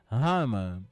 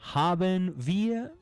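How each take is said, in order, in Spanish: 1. Las palabras se fusionan en una forma corta. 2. Ambas palabras se dicen completas. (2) "En vez de decir"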